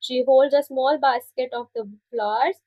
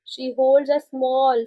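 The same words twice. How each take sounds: First: Said in the usual way. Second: Holds said slowly and leaned on, very slow delivery; slow it right down and stress holds. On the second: Shown as a demonstration. Teacher repeating for the class, slow stress on holds. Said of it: "Hold मतलब पकड़ना".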